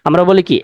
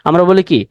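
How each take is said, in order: Both takes have the same delivery.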